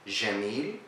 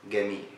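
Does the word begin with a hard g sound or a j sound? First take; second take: j sound; hard g. First: The word begins with a j sound. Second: The word begins with a hard g sound. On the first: "they say jim as it is" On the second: "we said jim in Egypt is g"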